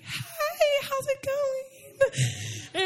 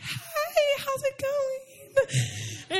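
First: It is said in a high-pitched voice. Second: It is said in a high-pitched voice.

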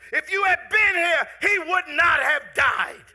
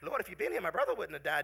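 First: It is said with frustrated passion. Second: It is said calmly, without passion.

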